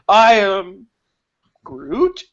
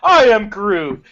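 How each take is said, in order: First: It is said in a nervous, shaky way. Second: It is said in a happy, cheerful way. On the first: "in a scene where he's nervous" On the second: "in a scene where he's happy"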